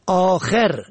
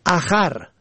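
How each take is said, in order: First: آخر said "aakher"; long aa, then short e in آخر; kasra on second. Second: اخر said "akhar"; short a in second syllable of اخر; fatha on second. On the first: Teacher shows آخر for "last", pronounced aakher. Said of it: "به کسر دوم". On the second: Teacher shows اخر for "other", pronounced akhar. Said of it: "به فتح دوم". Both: Shown as a demonstration.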